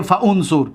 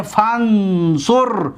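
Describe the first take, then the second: First: «فانصر» split as fa-unsur; unjoined fa-unsur. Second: Slow «فانصر», fan-sur with no hamza; joined fansur. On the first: Teacher shows what we don't say, «فانصر» as fa-unsur. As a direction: sound the hamza in «فانصر», fa then unsur. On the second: Teacher shows what we say, «فانصر» joined as fansur. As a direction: run «فانصر» together as one word, fansur. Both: Shown as a demonstration.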